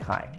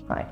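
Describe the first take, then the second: First: It is said in an exuberant, flamboyant way. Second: It is said in a cool, understated way.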